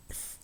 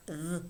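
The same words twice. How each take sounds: First: "th" as a voiceless hiss between the teeth. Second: "th" buzzed with the voice on; voiced th. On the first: Teacher showing students the two sounds, voiceless "th". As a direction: say "th" with breath only, no voicing. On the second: Teacher showing students the two sounds, voiced "th". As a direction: sound "th" voiced, tongue between the teeth. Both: Shown as a demonstration. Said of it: "which are pronounced either".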